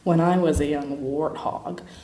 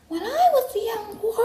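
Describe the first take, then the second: First: It is said in a plain, unsexy voice. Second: It is said in a high register.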